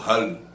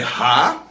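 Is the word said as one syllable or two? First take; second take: one syllable; two syllables. First: The vowels merge into one syllable. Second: The vowels are split into two syllables. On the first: The speaker calls it wrong. "Tudo junto. Não tem como falar isso" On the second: The speaker calls it right. "É separado"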